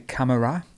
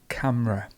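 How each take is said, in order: First: The middle vowel is clearly pronounced. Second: The middle vowel is almost dropped. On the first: The speaker calls it wrong. "lots of people say camera" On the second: The speaker calls it right. "It's literally just camera. We have almost a silent E in the middle"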